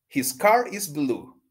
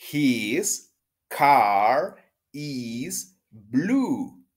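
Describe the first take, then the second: First: The sentence is said at a fast speed. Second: The sentence is said at a normal speed. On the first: "Rápido" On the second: "De nuevo"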